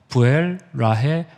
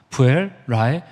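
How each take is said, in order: Both takes have the same delivery.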